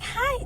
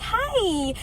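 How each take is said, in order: First: It is said in a plain, ordinary way. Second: It is said in a prissy, overly happy way.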